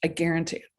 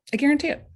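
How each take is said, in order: First: Said in the usual way. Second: "guarantee" pushed higher and louder; a rising, insistent promise; emphatic guarantee. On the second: Shown as a demonstration.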